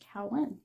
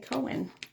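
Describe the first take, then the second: First: The first syllable rhymes with 'now'. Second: The first syllable rhymes with 'go'. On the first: The speaker calls it right. "C O W A N should be fairly simple, right?" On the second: The speaker calls it wrong. "but no, they say Cohen"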